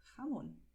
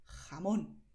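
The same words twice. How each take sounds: First: Jamón with a soft breathy h; jamón pronounced hamón; softer j. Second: Jamón with a harsh throaty j; jamón pronounced with a hard x sound; strong Spanish j. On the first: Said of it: "es más suave". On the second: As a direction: rasp the j in jamón. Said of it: "se puede pronunciar así". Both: Shown as a demonstration.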